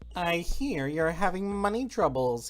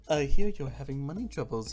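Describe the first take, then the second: First: It is said in a suave nasal salesman voice. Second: It is said in a plain normal voice.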